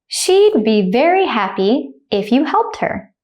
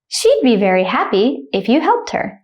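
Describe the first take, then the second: First: The sentence is spoken slowly and carefully. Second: The sentence is spoken quickly at natural speed. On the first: "The first time I'll say it slowly" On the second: "then I'll say it like a native speaker, speed"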